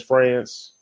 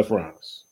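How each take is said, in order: First: "France" with a short A, like the country in American English; France as it is spelled. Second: "France" with an open AH, like "Frahnce". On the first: Showing how his written name reads, "France" with the A of "dance". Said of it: "I know it says France". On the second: Introducing himself to podcast viewers, "France" said as Frahnce. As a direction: say "France" as "Frahnce", rhyming with "nonce". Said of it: "it's pronounced". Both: Shown as a demonstration.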